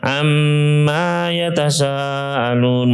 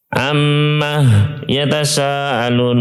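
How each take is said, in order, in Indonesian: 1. Amma berakhir dengan vokal panjang. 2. Amma berakhir dengan bunyi h. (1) "ini tapi ada alifnya" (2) "amma dengan ha"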